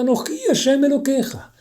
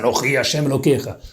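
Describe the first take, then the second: First: It is said in a put-on woman's voice. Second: It is said in a deep man's voice.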